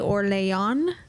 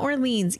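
First: The name is pronounced differently from its spelling. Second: The name is pronounced just as it is spelled. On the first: The speaker calls it right. "who was the wife of the de Orléans" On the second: The speaker calls it wrong. "not Orleans, even though it looks just like it"

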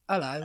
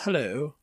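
First: It is said in a Cockney accent. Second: It is said in a posh British accent. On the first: "the other one I was thinking of is Cockney" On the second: "Posh received pronunciation"

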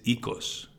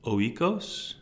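First: The word begins with an 'ee' sound. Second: The word begins with an 'oy' sound. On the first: The speaker calls it right. "It's ikos" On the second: The speaker calls it wrong. "is not pronounced oikos"

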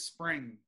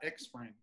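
First: The name begins directly with 'sp'. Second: The name begins with an 'ex' sound. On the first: The speaker calls it right. "it's spring" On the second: The speaker calls it wrong. "It's not Xspring"

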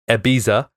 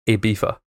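First: It is said with an American pronunciation. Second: It is said with a European pronunciation. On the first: "the Americans say Ibiza" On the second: "Europeans, or it says Spanish and English, say Ibiza"

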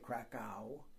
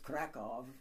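First: It is said the English way, ending in w. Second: It is said the local Polish way, ending in v.

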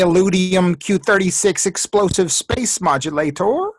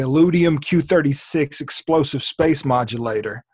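First: It is said in a higher-pitched put-on voice. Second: It is said in a normal speaking voice.

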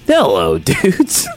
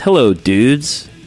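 First: It is said in an exaggerated character voice. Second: It is said in the speaker's ordinary voice.

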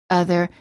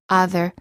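First: The first vowel is the neutral uh sound. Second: The first vowel is not the neutral uh sound. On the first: The speaker calls it right. "the neutral sound" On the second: The speaker calls it wrong. "mispronounce as"

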